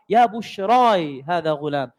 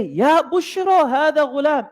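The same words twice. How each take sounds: First: "Ya bushrai hada ghulam" slow, lower, with bushrai ending in -ai; other qira'ah reading. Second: "Ya bushra hada ghulam" chanted slow and raised, bushra with no final i; recited Arabic reading. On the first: Preacher gives the alternate reading "bushrai", slow and lower. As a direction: recite "Ya bushrai hada ghulam" slowly, stressing the -ai of bushrai. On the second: Preacher recites the water boy's cry, slow chanted "Ya bushra". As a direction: intone "Ya bushra hada ghulam" slowly, higher, ending bushra plainly.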